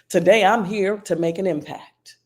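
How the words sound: It is said with strength and boldness. "say that with strength"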